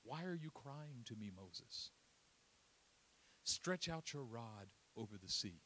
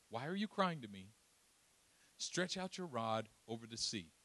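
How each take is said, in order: First: Soft, low and unhurried; a quiet, firm divine rebuke; God answering Moses gently; God speaking calmly. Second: Said in the usual way. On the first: Acted. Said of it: "listen to what the Lord says".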